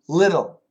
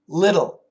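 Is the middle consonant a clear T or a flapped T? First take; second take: flapped T; flapped T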